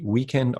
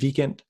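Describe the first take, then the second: First: The word begins with a rounded W sound. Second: The word begins with a V sound. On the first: "In English, we say" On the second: "In Danish, we keep it flat"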